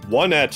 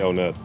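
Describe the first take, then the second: First: The first syllable sounds like 'one'. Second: The first syllable sounds like 'on'. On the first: "one-et would actually make the most sense" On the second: "I just like how on Onet sounds, so I tend to say Onet"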